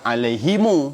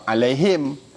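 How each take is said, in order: First: The word ends in himu with an added vowel. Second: The word ends in him with no final vowel. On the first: A third group of Arabs reads it this way. "ha dhamir belakang tu dia baca alaihimu" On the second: One group of Arabs reads it this way. "dia baca alaihim"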